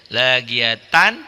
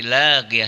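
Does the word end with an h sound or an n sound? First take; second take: n sound; h sound. First: The word ends with a full -tan ending. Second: The word ends with a silent h sound. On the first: The reciter continues without stopping. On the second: The reciter stops at this word.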